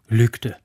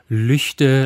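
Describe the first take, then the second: First: The middle consonant is a hard k sound. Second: The middle consonant is a soft ch sound. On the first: This follows the ordinary German pronunciation rules. "Weil das G nach einem Vokal als ein G oder ein K gesprochen wird" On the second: This is how the locals say the name. "die Aussprache dort vor Ort doch so konsequent auf Lüchte lautet"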